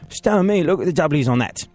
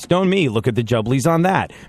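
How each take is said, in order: First: It is said in an English accent. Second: It is said in an American accent.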